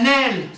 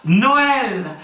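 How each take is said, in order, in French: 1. Le o et le e se fondent en une seule voyelle. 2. Le o et le e se prononcent comme deux voyelles.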